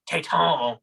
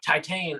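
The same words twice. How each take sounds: First: It is said with a French pronunciation. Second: It is said with an English pronunciation.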